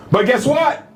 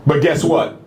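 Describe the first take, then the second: First: "But guess what?" pitched up and lifted, teasing the reveal; a bright raised "But guess what?" before the punchline; lifted question. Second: Said in the usual way. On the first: Real, not acted. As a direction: toss "guess what" up high to grab the room. Rhetorical turn in a speech.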